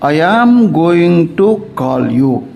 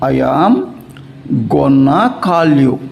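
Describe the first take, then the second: First: 'Going to' is said as two full words. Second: 'Going to' is reduced to one word, 'gonna'.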